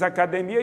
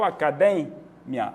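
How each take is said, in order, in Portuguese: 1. A tônica não está na sílaba 'de'. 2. A tônica está na sílaba 'de'. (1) "no português" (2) "A tônica do espanhol é de"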